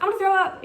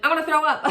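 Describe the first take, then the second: First: Urgent alarm. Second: Urgent nausea. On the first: Says it again, more urgent. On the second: Nausea on the table. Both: Retold or imitated.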